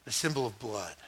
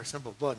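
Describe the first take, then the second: First: Low, soft explanation; hushed solemn answer. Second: Soft, low baffled repeat; puzzled echo. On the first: Believer explaining the sign to a stranger, low and solemn. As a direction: say it low and quietly, with weight. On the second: Stranger repeating the odd answer back, softly baffled. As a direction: echo it quietly as if it makes no sense. Acted listener repeats it in disbelief. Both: Acted.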